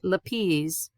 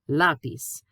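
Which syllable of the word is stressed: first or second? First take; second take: second; first. First: The stress is on the second syllable. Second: The stress is on the first syllable. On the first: The speaker calls it wrong. "not lápiz" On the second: The speaker calls it right. "you kind of do a kick or emphasize the letter that's being accented"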